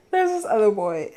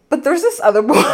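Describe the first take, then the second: First: Said in the usual way. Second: Higher and louder tease of the new story; grinning build-up to the gossip; excited. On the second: Real, not acted. Teasing the next story.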